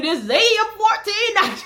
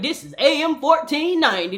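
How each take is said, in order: First: Higher, louder mock station ID; radio announcer voice. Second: Mock radio station ID, raised and bright; radio announcer voice. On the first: Imitating the radio station announcer, laughing. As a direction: belt the call sign like a DJ. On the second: Imitating the radio station announcer.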